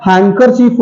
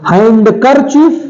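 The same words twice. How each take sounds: First: "हैंडकरचीफ" said hang-kar-cheef, no d; silent D. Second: "हैंडकरचीफ" drawn out as hand-kar-cheef, slow; sounded D. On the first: Teacher giving correct handkerchief, silent D. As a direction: drop the d in "हैंडकरचीफ". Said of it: "डी यहां पर भी silent". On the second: Teacher showing wrong handkerchief, sounded D. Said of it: "हैंडकरचीफ तो नहीं सुना". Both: Shown as a demonstration.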